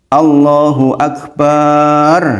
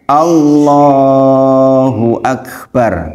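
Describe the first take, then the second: First: The final syllable 'bar' is stretched long. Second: The middle syllable 'lah' is stretched long. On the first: The last word comes to mean a drum. The speaker calls it wrong. "barnya panjang" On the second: It means God is the greatest. The speaker calls it right. "Yang betul harusnya Allahu Akbar. Yang panjang apanya? Allahnya"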